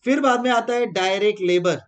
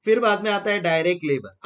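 First: बाद stressed, said a little louder; teacher's emphatic बाद in फिर बाद में. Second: Said in the usual way. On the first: Shown as a demonstration. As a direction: lean on बाद to announce the next point.

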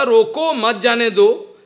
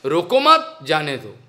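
First: "रोको" alone, "मत जाने दो" joined; intended phrasing. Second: "रोको मत" joined and rising, "जाने दो" dropping low; misplaced pause. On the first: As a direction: break after "रोको", run "मत" into "जाने दो". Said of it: "मैंने बोलना था". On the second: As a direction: pause after "मत", not after "रोको". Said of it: "लेकिन बोल दिया". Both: Shown as a demonstration.

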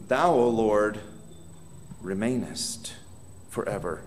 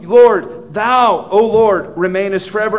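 First: Soft, low, reverent reading of the verse; hushed scripture reading. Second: Much louder, higher, each word hammered; thundering proclamation. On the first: Preacher reading the promise to his church, softly. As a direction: let the words sink almost to a murmur. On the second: Preacher proclaiming God's eternal throne to his church, booming. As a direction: shout the promise like a herald. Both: Acted.

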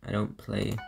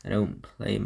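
No difference in how they are said.

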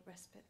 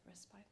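First: "Respite" said as RES-pit; "Respite" ending like the word "spit"; short-i pronunciation. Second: "Respite" said softly as RES-pite; soft "Respite" ending like "spite"; long-i pronunciation. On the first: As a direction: give "Respite" a short i at the end. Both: Shown as a demonstration. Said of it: "as some people pronounce it".

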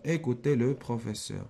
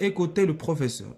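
First: Slow, measured classroom dictation; unhurried word-by-word reading. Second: Said in the usual way. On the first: Shown as a demonstration. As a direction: say it slowly so it can be written down. Same sentence dictated slowly.

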